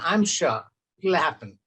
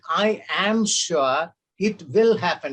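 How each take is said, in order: First: The words 'I am' are contracted to 'I'm'. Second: The words 'I am' are said in full. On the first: "you will simply say" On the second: "you did not read"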